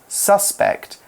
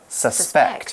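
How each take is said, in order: First: The stress is on the first syllable. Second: The stress is on the second syllable. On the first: It names a person thought guilty. "as a noun, we put the emphasis on the U" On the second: It means to think someone is guilty. "as a verb"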